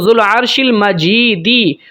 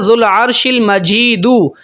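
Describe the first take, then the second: First: The last word ends with an 'i' vowel. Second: The last word ends with an 'u' vowel. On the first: "पेश की जगह पे ज़ेर पढ़ सकता हूँ" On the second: "पेश की जगह"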